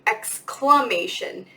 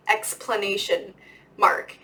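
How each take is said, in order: First: Slow, careful "exclamation" with a clear K sound; correct exclamation. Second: Students saying it as "Explanation mark", with a P sound; "Explanation mark" said the mistaken way, EX-PLAN-ation; wrong explanation mark. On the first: Shown as a demonstration. Teacher correcting students, slowly saying "exclamation". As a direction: spell out "exclamation" slowly, ex-CLAM-ation, no P. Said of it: "and so it's exclamatory". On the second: Retold or imitated. Students getting the name wrong, saying "Explanation mark". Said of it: "And they say".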